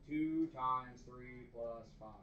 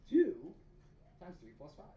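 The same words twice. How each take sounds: First: It is said in a flat, robotic voice. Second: It is said in a natural, human voice.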